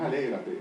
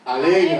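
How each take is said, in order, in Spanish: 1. La palabra se dice plana, sin fuerza extra. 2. La palabra se dice con fuerza, con énfasis. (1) "no es alégrate" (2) "es alégrate, porque tiene una coma"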